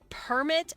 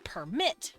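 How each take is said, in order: First: The stress is on the first syllable. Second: The stress is on the second syllable. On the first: It is a noun meaning a document of permission. "the per is more emphasized for the noun" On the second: It is a verb meaning to allow. "the mit is more emphasized for the verb"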